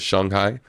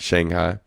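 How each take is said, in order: First: It is pronounced closer to the Chinese way. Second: It is pronounced in an anglicized way. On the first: The speaker calls it right. "It's Shanghai" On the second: The speaker calls it wrong. "not Shanghai"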